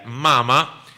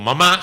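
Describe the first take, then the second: First: The stress is on the first syllable. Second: The stress is on the last syllable. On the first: "si no diría mama" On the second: "se le ve como mamá"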